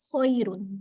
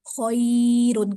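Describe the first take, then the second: First: The word is said quickly and smoothly. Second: The word is said slowly with a jerk. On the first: The speaker calls it right. "जल्दी पढ़ते, नरमी के साथ, बगैर झटके के" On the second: The speaker calls it wrong. "Khairun करके नहीं पढ़ते"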